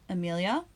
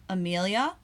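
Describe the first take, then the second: Both takes have the same delivery.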